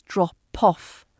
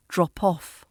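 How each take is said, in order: First: "drop off" split into drop, then poff; broken-down linked P. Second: "drop off" as one unit, dro-poff; joined linked P. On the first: Teacher breaking down the link, P starting the second word. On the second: Teacher putting it together, P linked smoothly onto off. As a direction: glide the p of "drop off" straight onto off. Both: Shown as a demonstration. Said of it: "that P can move to the off".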